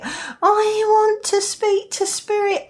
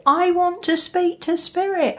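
First: High, drawn-out mock pleading; hammed-up eager insistence; insistent beginner. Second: Higher-pitched eager plea; mock eagerness, pitched up; eager beginner. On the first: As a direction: play an overeager beginner, voice pitched high. Repeats the beginner's wish, more insistently. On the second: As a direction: voice a keen beginner's wish. Acting out an eager beginner's wish.

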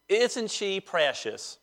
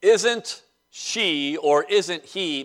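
First: Slow, drawn-out Southern accent. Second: Said in the usual way. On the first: Shown as a demonstration. Preacher demonstrating a Southern saying, in a Southern accent. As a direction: draw it out in a soft Southern accent. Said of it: "I'll do it in my Southern accent". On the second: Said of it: "maybe I'll do it in my Southern accent".

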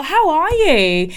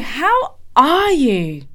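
First: Higher, louder, drawn-out HOW ARE YOU; gushing greeting. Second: HOW ARE YOU stretched very slow, pitched high; emphatic concern. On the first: Colleague welcomes her into the office, gushing. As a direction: imitate a colleague's effusive hello. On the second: Colleague asks again how she really is, emphatic. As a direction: lean slowly into each word of "How are you". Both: Retold or imitated.

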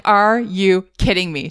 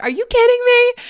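First: Slow, measured disbelief; incredulous. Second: High-pitched mock outrage; exasperated outburst. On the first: Retold or imitated. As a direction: spell out your disbelief slowly, without raising your voice. Incredulous first words to the bat. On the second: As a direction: retell losing it at a bat, voice shooting up. Escalating retold outburst at the bat.

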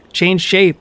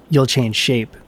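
First: Higher, ringing echo of the words; cavern echo. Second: Said in the usual way. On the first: A narrator's reading. The cavern echoes Loki back at him, higher echoing call. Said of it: "echoed the cavern".

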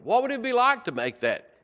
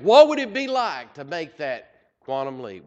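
First: Excited lift. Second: Said in the usual way. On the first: Real, not acted. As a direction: repeat the question pitched much higher. Preacher repeats question, much higher.

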